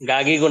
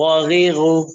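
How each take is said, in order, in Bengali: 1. প্রতিটি শব্দাংশ সাধারণ কঠিন g দিয়ে শুরু হয়। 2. প্রতিটি শব্দাংশ গলার gh দিয়ে শুরু হয়। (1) "গাগিগু না"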